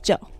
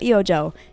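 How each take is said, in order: First: The name is said as one syllable. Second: The name is said with several syllables. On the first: The speaker calls it right. "it's just Joe. Because the E and the O are silent" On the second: The speaker calls it wrong. "here I go again saying it wrong. It's not Eojo"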